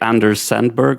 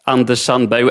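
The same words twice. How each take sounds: First: The name is said with an American pronunciation. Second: The name is said with a Swedish pronunciation. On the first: "Maybe you would say Anders Sandberg or something like that" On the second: "I pronounce it in Swedish"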